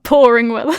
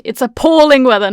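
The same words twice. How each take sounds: First: "pouring" said as POUR-ing with rising tune; "pouring weather" as the misheard version; mock-wrong "pouring" rising at the end. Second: "appalling" said clearly as a-PALL-ing, stressed; crisp "It's appalling weather" with the middle syllable hit. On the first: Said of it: "not pouring weather". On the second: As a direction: correct script line, "appalling" stressed. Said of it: "it says it in the script". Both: Shown as a demonstration.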